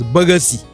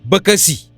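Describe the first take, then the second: First: The middle consonant is a voiced g sound. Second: The middle consonant is a voiceless k sound. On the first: Some people say it this way. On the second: This is the form chosen for writing.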